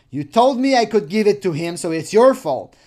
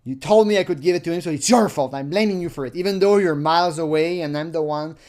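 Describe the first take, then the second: First: Said in the usual way. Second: Serious reading. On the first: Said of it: "get the serious line here". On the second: Shown as a demonstration. Reading the pervert's chat line seriously, firm and fast. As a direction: read it straight and firm, a bit fast. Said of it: "the serious line here".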